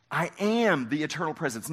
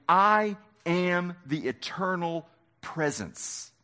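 First: Said in the usual way. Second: I am the eternal presence, slowly and weightily; slow solemn proclamation. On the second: Shown as a demonstration. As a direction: let each word land. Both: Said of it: "Jesus is saying".

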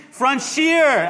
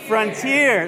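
First: "Frontier" said French-style as "frun-SHEER"; mispronounced frontier. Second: "Frontier" with a crisp t, "frun-TEER"; correct frontier. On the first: Retold or imitated. Pastor defending his wrong word to his wife, mispronounced frontier. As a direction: say "Frontier" with a sh sound in the middle. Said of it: "it's not frontier". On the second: Shown as a demonstration. Pastor giving the word his wife corrected, correct pronunciation. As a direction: say "Frontier" with a t, no sh sound. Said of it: "how do you say it?".

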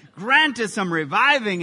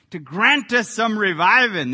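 First: Said in the usual way. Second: Loud Southern Baptist preacher drawl. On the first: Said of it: "Doesn't that sound Southern Baptist right there?". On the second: Shown as a demonstration. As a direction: drop the g with a Southern twang. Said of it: "I got to say it with that Southern drawl".

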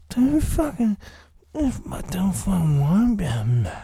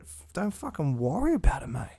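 First: Much higher, much louder hammed-up yell; put-on yelling voice. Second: Said in the usual way. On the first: Podcaster shouting his catchphrase to listeners, in a hammed-up yelling voice. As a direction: bellow it in a silly character voice.

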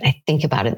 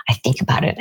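First: Said in the usual way. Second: Lower, murmured under the breath as if stewing; brooding whisper. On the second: Acted. Stewing alone after a fight with the spouse, whispered. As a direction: whisper it low, like an obsessive thought. Ruminating over argument with spouse.

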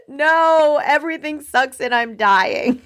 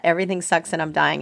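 First: Hammed-up exasperated meltdown; mock angry outburst. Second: Said in the usual way. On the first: Customer blowing up at a poor Starbucks employee, mock angry. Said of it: "might even come out as anger". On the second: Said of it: "I have a shirt that says that".

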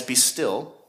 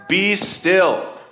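First: Said in the usual way. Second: "be still" barked higher and louder as an order; forceful command. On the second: Shown as a demonstration. Preacher demonstrating God's stern command, forceful. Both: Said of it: "then we need to hear it as".

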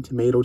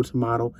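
First: Tomato with a long A; first pronunciation. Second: Tomato with a broad A; alternative pronunciation. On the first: Coach shrugging off correction, tomato said as to-MAY-to. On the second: Coach shrugging off correction, tomato said as to-MAH-to. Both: Shown as a demonstration. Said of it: "That's how I say it".

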